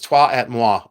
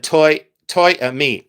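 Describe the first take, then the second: First: It is said with French vowels. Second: It is said with English-style vowels. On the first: The speaker calls it right. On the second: The speaker calls it wrong.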